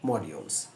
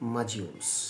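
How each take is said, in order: First: It is said in a British accent. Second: It is said in an American accent. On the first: "এটা হলো UK উচ্চারণ" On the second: "আমেরিকানরা বলবে"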